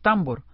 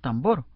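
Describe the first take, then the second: First: The stress is on the first syllable. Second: The stress is on the last syllable. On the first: The speaker calls it wrong. "no decimos tambor" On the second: The speaker calls it right. "sino tambor. Con acento en bor"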